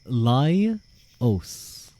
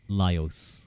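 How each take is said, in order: First: The O vowel is drawn out and strongly pronounced. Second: The O vowel is lighter and less pronounced. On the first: The speaker calls it wrong. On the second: The speaker calls it right.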